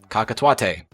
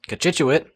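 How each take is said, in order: First: The name begins with the sounds 'ka-ka'. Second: The name begins with the sounds 'ko-chit'. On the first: The speaker calls it wrong. "I might have said something like Kakatuate" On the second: The speaker calls it right. "How did you know how to pronounce that?"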